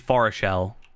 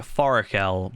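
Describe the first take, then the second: First: The middle consonant is a soft sh sound. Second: The middle consonant is a hard k sound. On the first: This is the form used years earlier. The speaker calls it wrong. "I used to fa- say Forashel" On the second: This is the form from a pronunciation guide. The speaker calls it right. "I say Forakel because that's how I was told to say it in a video"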